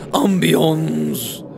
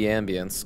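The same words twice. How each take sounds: First: The word is pronounced in a fancy, affected way. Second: The word is pronounced plainly, like ambient. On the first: The speaker calls it wrong. "everyone becomes a pretentious shitlord" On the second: The speaker calls it right. "it should be ambience, because the word is ambient"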